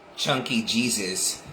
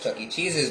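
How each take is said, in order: First: The name is slurred to sound like another phrase. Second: The name is pronounced in the usual way. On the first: "the way he pronounced it was Chunky Jesus" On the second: "he says Chuck E. Cheese's"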